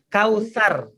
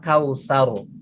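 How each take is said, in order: First: The r is thin, with the mouth spread wide. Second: The r is thick, with the mouth rounded. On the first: The speaker calls it wrong. "Ini pengucapan yang salah" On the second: The speaker calls it right. "Jadi yang benar adalah kausar"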